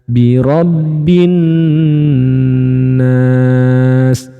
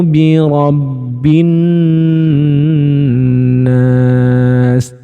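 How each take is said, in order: The two takes are said the same way.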